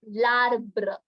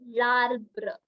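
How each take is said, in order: First: The article and noun merge into one word. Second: The article and noun merge into one word.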